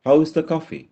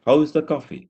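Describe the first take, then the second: Both takes have the same delivery.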